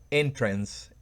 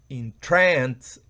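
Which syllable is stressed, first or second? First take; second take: first; second. First: The stress is on the first syllable. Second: The stress is on the second syllable. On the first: It is the noun, a way in. "el acento va en la primera sílaba" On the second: It is the verb, to enchant. "va en la segunda sílaba"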